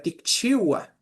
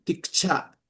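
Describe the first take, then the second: First: Ticchiwa with the full chi-wa ending; Santo Domingo form. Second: Ticcha with the ending shortened to cha; Izalco form. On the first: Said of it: "como nosotros decimos". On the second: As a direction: say Ticcha, one open cha to finish. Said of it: "Allá decían". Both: Shown as a demonstration.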